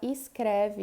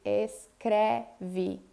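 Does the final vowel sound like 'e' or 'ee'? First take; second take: ee; e. First: The final vowel sounds like 'ee'. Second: The final vowel sounds like 'e'. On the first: "eu posso falar escreve" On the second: "em vez de escreve"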